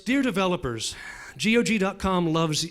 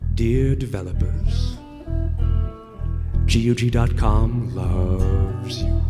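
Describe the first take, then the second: First: It is read plainly, without emotion. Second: It is said in a sultry, emotional slow-jam style.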